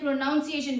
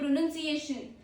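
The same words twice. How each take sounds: First: The second syllable sounds like noun. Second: The second syllable sounds like nun. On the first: The speaker calls it wrong. "we don't say pronunciation" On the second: The speaker calls it right. "We say pronunciation. Not noun. It's N U N"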